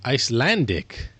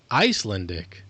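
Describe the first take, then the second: First: Ice-LAN-dik, stress on the middle of "Icelandic"; second-syllable stress. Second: ICE-lun-dik, stress on the start of "Icelandic"; first-syllable stress. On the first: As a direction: hit the LAN in "Icelandic", full vowel. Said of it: "sounds right". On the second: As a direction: hit the Ice in "Icelandic", weak middle vowel. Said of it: "it still doesn't sound right". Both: Shown as a demonstration.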